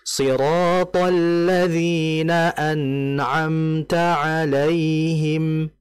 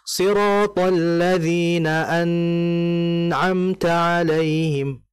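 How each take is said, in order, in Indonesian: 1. Bunyi n mengalir dengan panjang yang sedang. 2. Bunyi n ditahan terlalu lama. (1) "Nunnya dialirkan" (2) "Atau lama. ... itu salah"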